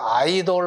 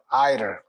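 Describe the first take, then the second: First: The last syllable has a clear 'o' vowel. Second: The last syllable has a reduced 'uh' vowel. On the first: The speaker calls it wrong. "우리나라에서 보통 보면 뭐 아이돌 그룹 그래서 아이돌 어른돌 뭐 이런 거 그러는데 돌이 아니고" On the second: The speaker calls it right. "들이 아이들 아이들"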